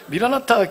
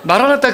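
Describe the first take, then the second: First: The first syllable has the vowel "i". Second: The first syllable has the vowel "a". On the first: The speaker calls it wrong. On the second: The speaker calls it right.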